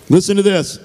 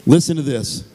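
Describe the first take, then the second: First: Emphatic repeat. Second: Said in the usual way. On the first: Real, not acted.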